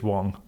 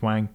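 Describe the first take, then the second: First: The vowel sounds like an O. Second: The vowel sounds like a short A. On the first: The speaker calls it right. "We pronounce A's as O's in China" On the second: The speaker calls it wrong. "a lot of people think it's Wang. It's not"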